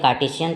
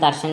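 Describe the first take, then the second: First: The word includes a clear 't' sound mid-word. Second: The word drops the 't' sound mid-word. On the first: The speaker calls it right. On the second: The speaker calls it wrong.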